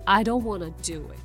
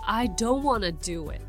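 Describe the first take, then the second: First: Want to is blended into wanna. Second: Want to is blended into wanna.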